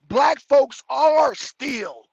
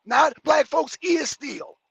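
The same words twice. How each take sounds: First: Very slow, stressing "are"; correct version. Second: Slow, stressing "is"; wrong version. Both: Shown as a demonstration. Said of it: "I need you to say it".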